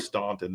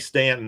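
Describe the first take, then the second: First: The name is said the northern way. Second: The name is said the local way. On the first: The speaker is from the north. "then you're from the north" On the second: The speaker is from the area. "that means you're from around here"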